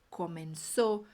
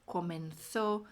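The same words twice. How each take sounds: First: The z is said as a plain s. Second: The z is said with the tongue between teeth. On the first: This is the pronunciation of the Americas. "Vai ter o mesmo som do S" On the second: This is the pronunciation of Spain. "Vai ser sempre esse som com a língua entre os dentes"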